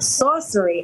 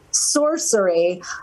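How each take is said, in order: First: The word is said in a New Jersey accent. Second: The word is said in a standard accent. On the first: This is how it actually comes out of the speaker's mouth. "I'm from New Jersey, so it comes out sorcery" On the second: This is the pronunciation the speaker intended. "I went to go say sorcery"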